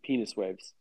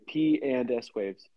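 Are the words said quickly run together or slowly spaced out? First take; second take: quickly; spaced out. First: The words are said quickly and run together. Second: The words are said slowly and clearly separated. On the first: The speaker calls it wrong. "it sounds like penis waves" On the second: The speaker calls it right. "You got to really say P and S waves"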